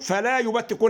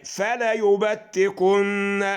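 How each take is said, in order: First: The l is followed by a long a. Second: The l is followed by a short a. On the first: The speaker calls it wrong. "هي مش لام الف" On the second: The speaker calls it right. "فتحه بس على اللام اهي"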